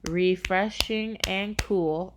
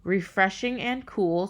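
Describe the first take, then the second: First: Slow, syllable by syllable; counting syllables. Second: Said in the usual way. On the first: Shown as a demonstration. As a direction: break "refreshing and cool" into its five beats. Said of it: "that's five syllables". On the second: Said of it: "So if you go".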